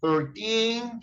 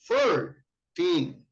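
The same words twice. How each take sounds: First: The stress is on the second syllable. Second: The stress is on the first syllable. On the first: The speaker calls it right. "from thirteen to nineteen, the accent is on teen" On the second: The speaker calls it wrong. "you don't say thirteen. No, no, this is incorrect"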